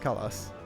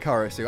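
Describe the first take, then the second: First: The name's final syllable is cut off. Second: The name keeps its final syllable. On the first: "cutting off the the end" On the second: "his name is actually Karasu"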